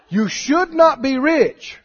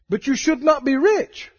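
First: It is said very slowly. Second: It is said at normal speed.

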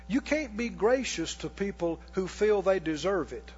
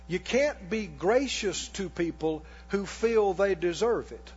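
First: It is said at normal speed. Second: It is said slowly and deliberately.

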